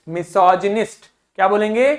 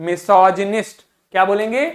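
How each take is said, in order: No difference in how they are said.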